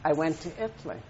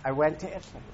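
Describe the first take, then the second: First: "I" leaned on, falling to "Italy"; stress on I. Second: "went" held long and stressed. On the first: Speaker tells the audience he went, stressing "I". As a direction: put the weight on "I". Repeats line with shifted stress. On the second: Speaker repeats to the audience, stressing "went". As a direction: lean into "went". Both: Shown as a demonstration.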